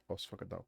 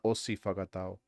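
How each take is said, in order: First: No vowel is voiced after the s. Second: An i vowel is voiced after the s. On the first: The speaker calls it right. "you don't say the the I" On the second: The speaker calls it wrong. "It's not osi whakatau"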